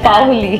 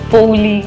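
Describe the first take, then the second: First: The first syllable is an 'a' gliding into 'o'. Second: The first syllable is a gliding 'ou' vowel. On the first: This is the name's proper form. The speaker calls it right. "It's পাওলি" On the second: Other people said it this way. The speaker calls it wrong. "এক একজন এক এক রকম ভাবে করতো"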